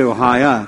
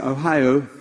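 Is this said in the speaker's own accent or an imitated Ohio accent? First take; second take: own accent; Ohio accent. First: It is said in the speaker's own regional accent. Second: It is said in an imitated Ohio accent. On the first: This is how the speaker's own community says it. "We say Ohio" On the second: This is how people from Ohio say it. "They say Ohio"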